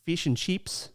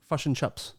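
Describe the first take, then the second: First: Australian "fish and chips" with tight ee vowels; Australian accent. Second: New Zealand "fish and chips" with uh vowels; New Zealand accent. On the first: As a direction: say "fish and chips" as "feesh and cheeps". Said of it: "I believe Australian is". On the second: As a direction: say "fish and chips" as "fush and chups". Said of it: "And New Zealand is". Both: Shown as a demonstration.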